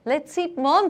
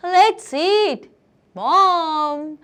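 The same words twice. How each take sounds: First: "Let's eat mom" run together without a break; no comma pause. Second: "Let's eat", clear pause, then drawn-out "mom"; comma pause. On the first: Teacher showing missing punctuation, no comma pause. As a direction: say "eat mom" as one quick phrase. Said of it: "अगर मैं इसको सही से punctuate ना करूँ". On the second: Teacher adding a comma, pause before "mom". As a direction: call it high and loud, breaking after "eat" before "mom". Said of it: "अगर मैं यहाँ पे कॉमा लगा दूँ". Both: Shown as a demonstration.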